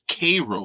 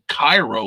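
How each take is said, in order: First: It sounds like the syrup brand name Karo. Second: It sounds like the usual name of Egypt's capital. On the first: This is the local Illinois pronunciation. "like the sugary syrup" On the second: This is the common worldwide pronunciation. "like the rest of the world does"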